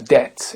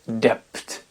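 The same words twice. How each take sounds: First: The b is silent. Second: A b sound is heard. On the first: The speaker calls it right. "Je prononce bien anglais la debt" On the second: The speaker calls it wrong. "et non pas debt"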